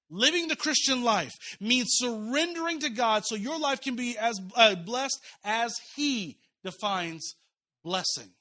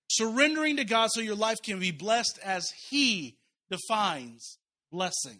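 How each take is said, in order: First: Louder, stressed retake of the soul tattoo; slow emphatic repeat. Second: Said in the usual way. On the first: Shown as a demonstration. Pastor repeating the key sentence to his church, slow and emphatic. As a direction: lean into every word the second time. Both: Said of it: "Let me say that again".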